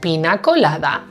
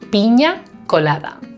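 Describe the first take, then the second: First: The middle consonant is a plain n sound. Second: The middle consonant is an ny sound. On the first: The speaker calls it wrong. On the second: The speaker calls it right.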